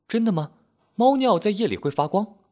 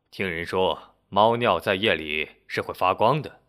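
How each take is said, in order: First: High-pitched, curious questioning. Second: Said in the usual way. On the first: A narrator's reading. Landlady asks Henry about glowing cat urine, curious. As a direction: ask it in wonder, pitched well up. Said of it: "老板娘好奇地问".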